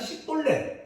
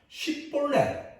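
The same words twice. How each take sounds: First: The word begins with an s sound. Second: The word begins with a sh sound. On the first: The speaker is an Ephraimite. The speaker calls it wrong. "십볼렛을 발음 못하고 그냥 십볼렛 이러면은 이 사람이 에브라임 사람이라는 거죠" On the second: The speaker is not an Ephraimite. The speaker calls it right. "어떻게 구분하는가 하면 십볼렛"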